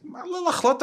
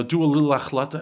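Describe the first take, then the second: First: Much higher, incredulous repeat; high-pitched exasperated protest; indignant echo. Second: Offhand imitated mentor suggestion; mock perfunctory counsel; dismissive advice. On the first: Retold or imitated. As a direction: throw the words back in disbelief. Indignantly throws the advice back. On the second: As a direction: toss it off as token advice. The useless mentor's small advice.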